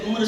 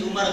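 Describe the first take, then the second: First: عمر as one syllable, umr; correct pronunciation. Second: عمر in two syllables, umar; wrong pronunciation. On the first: Preacher slipping in a pointed example, correct pronunciation. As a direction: join m and r at the end of عمر. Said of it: "ویسے ایک یہ بھی ہے کہ عمر صحیح". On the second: Preacher making a veiled point, wrong pronunciation. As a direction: add a vowel before the r in عمر: u-mar. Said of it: "غلط". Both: Shown as a demonstration.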